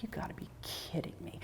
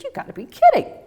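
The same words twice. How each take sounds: First: Whispered, voiceless disbelief; disbelieving whisper. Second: High, louder squeal of disbelief; amazed disbelief. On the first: To herself after losing her son's necklace, whispered. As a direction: breathe it out in quiet shock. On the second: Reacting to her post going viral, high amazed exclaim. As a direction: burst out with amazed joy. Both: Retold or imitated.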